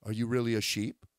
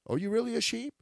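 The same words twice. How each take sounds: First: Said in the usual way. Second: Are you really a sheep? pitched higher with a rising end; rising challenge. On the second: Shown as a demonstration. Preacher challenges the congregation, pitched high and rising. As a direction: push the question up high. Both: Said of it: "repeated question".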